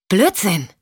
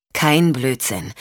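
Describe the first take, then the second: First: "Blödsinn!" snapped out, curt and dismissive; "Blödsinn!" as a short, hard, scornful snap; scornful retort. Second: "Kein Blödsinn." said slowly and evenly, weight on "Kein"; slow down and lean on "Kein" to settle her; "Kein Blödsinn." measured and slow, stress on "Kein"; calm rebuttal. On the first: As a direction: spit out "Blödsinn!" in disbelief. Michelle rejects Sean's claim. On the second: Sean calmly counters Michelle. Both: Acted.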